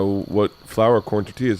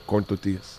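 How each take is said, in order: First: Said in the usual way. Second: Put-on tortillas said with a Mexican accent; low, soft Mexican-accented order. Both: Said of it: "With the accent".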